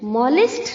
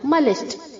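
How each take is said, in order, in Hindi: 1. पहला स्वर खुला 'o' जैसा है। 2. पहला स्वर छोटा, सामान्य 'uh' जैसा है। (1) "मॉलिस्ट नहीं होता है बच्चों" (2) "मलिस्ट होता है"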